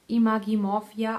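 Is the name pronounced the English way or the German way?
German. The name is pronounced the German way. "I would call it in German"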